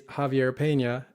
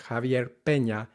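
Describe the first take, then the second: First: Peña said with an American e that glides; Peña with an English y-glide. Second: Peña with a short pure e; Peña, clean Spanish vowel. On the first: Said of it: "in English". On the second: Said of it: "in Spanish". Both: Shown as a demonstration.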